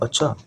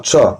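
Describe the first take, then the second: First: It is said in a plain, neutral way. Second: It is said as a question. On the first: The speaker simply acknowledges something. "अगर मैं simply कहूं" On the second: The speaker is asking whether it is so. "Question करूं"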